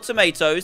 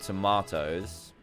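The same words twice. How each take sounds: First: It is said in an American accent. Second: It is said in a British accent.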